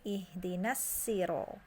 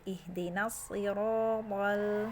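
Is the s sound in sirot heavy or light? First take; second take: light; heavy. First: The s sound is light and plain. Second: The s sound is heavy and emphatic. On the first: This is another reader's transmitted reading. "dengan uh, sin" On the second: This is one reader's transmitted reading. "pakai sod dulu"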